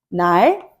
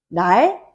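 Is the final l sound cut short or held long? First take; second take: held long; held long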